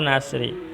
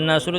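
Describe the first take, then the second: First: The word ends with an i vowel. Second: The word ends with an u vowel. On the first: The speaker calls it wrong. "tidak boleh" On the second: The speaker calls it right. "Harus dibaca nasru"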